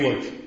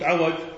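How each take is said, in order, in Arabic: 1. أول حركة هي 'i'. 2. أول حركة هي 'a'. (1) "بكسر العين الحرف يعني عوج" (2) "إذا فتحت قلت عوج"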